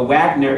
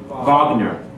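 First: The word begins with an English W sound. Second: The word begins with a V sound. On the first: The speaker calls it wrong. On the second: The speaker calls it right.

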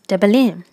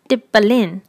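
First: The word is said quickly and run together. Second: The word is said slowly and carefully.

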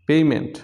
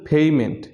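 No difference in how they are said.

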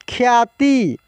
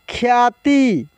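The two takes are said the same way.

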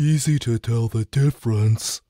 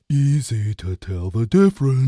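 First: It is said in a neutral tone. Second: It is said in a condescending tone.

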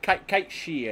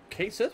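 First: The name has a Gaelic-style pronunciation. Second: The name has a common English-style pronunciation. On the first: "is the Gaelic pronunciation" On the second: "Everybody calls it Khaite Sith"

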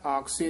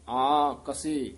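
First: It is said as one joined word. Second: It is said as two separate parts. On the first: The speaker calls it wrong. "ਆਕਸੇ ਨਹੀਂ ਕਹਿ ਦੇਣਾ" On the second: The speaker calls it right. "ਇਹ ਵੱਖਰਾ ਪਾਠ ਹੀ ਉਚਾਰਨ ਕਰਨਾ ਹੈ"

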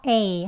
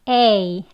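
First: The vowel is said with a relaxed, slightly open mouth. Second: The vowel is said with a wide-open mouth. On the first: The speaker calls it right. "그냥 편하게 에 정도 살짝 벌려서 A 합니다" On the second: The speaker calls it wrong. "입 크게 벌려서 A, A 이렇게 하시면 안 되고요"

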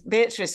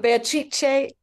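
First: The name is pronounced with English sounds. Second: The name is pronounced with Italian sounds. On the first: "we pronounce it here" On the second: "That's the Italian pronunciation"

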